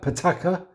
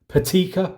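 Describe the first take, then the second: First: The middle vowel sounds like 'ah'. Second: The middle vowel sounds like 'ee'. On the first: The speaker calls it right. "It's actually pataka" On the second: The speaker calls it wrong. "I've been pronouncing it wrong"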